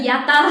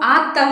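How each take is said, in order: First: The word begins with a 'y' glide before 'aa'. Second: The word begins with a plain 'aa' vowel. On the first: "யாத்தா அப்படின்னு சொல்லுவோம்" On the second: "ஆத்தா ஆத்தான்னு சொல்ல மாட்டோம்"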